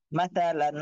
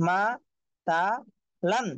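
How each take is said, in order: First: মা তা লান run together as one word; joined-up reading. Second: মা, তা, লান one by one with clear gaps; broken-up syllables. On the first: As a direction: read মা তা লান straight through without gaps. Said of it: "reading". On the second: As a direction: pause after each of মা, তা and লান. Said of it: "একটা একটা করে পড়বেন". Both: Shown as a demonstration.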